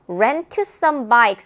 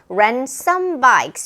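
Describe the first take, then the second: First: The t sound in rent is clearly pronounced. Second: The t sound in rent is dropped. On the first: The speaker calls it wrong. "rent some bikes 하지 않고" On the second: The speaker calls it right. "얘가 발음이 안 될 거야. 그래서 rent some bikes 이렇게 발음이 되죠"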